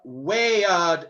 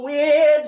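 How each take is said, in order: First: The word is said as two syllables. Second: The word is said as one syllable. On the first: The speaker calls it right. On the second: The speaker calls it wrong.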